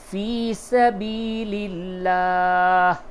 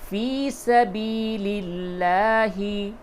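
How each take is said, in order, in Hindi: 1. अंतिम शब्द बिना स्वर के खत्म होता है। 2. अंतिम शब्द एक छोटे स्वर पर खत्म होता है।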